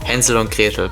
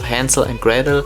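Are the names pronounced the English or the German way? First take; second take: German; English. First: The names are pronounced the German way. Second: The names are pronounced the English way. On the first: "sometimes I say the German names" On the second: "instead of Hansel and Gretel"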